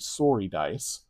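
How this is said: Sorry is said with a Canadian accent.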